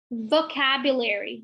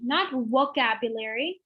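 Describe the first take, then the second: First: "Vocabulary" with bitten V, teeth on lip; "Vocabulary" opening on a buzzing V; correct V. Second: "vocabulary" said "wocabulary" with rounded W; "vocabulary" begun with round lips, no V; wrong W sound. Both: Shown as a demonstration.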